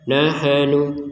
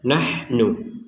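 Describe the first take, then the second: First: An extra vowel is inserted after the h. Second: The h is followed directly by the n. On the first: The speaker calls it wrong. "Jangan dibaca nahanu" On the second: The speaker calls it right. "Jadi kita membacanya nahnu"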